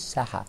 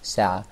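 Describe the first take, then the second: First: The middle has a breathy h sound. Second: The middle has a throaty ayn sound, no h. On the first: The speaker calls it wrong. "He says Saha" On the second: The speaker calls it right. "This is a watch"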